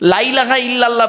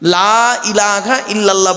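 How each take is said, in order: First: The vowel of 'la' is said short. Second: The vowel of 'la' is drawn out long. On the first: There is indeed a god besides God. The speaker calls it wrong. "বলবেন না" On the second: There is no god except God. The speaker calls it right. "লয়াকার একটু টান দেবেন"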